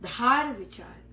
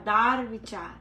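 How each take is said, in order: First: The first consonant is an aspirated dh. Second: The first consonant is a plain, unaspirated d. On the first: The speaker calls it right. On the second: The speaker calls it wrong. "दार विचार बिल्कुल नहीं"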